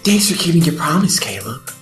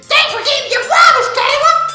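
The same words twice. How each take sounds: First: The line is said softly and gently. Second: The line is said loudly and forcefully.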